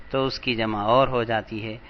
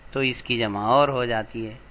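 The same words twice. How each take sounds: The two takes are said the same way.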